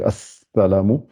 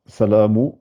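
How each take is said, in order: First: "assalamu" with a long, held s; doubled s. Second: "salamu" starting on a single s; no shadda. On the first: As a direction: hold the s in "assalamu" before releasing it. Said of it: "elle renforce la lettre". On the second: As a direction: say "salamu" without the leading a or doubled s. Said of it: "S'il n'y avait pas de shadda". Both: Shown as a demonstration.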